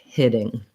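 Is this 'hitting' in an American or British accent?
American. It is said in an American accent. "American English"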